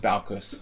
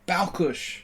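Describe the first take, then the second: First: The name ends with a plain 's' sound. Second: The name ends with an 'sh' sound. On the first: The letter is read the Polish way. The speaker calls it right. "His name is Balkus" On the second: The letter is read the Hungarian way. The speaker calls it wrong. "It's a Hungarian pronunciation thing... saying the S like a sh sound"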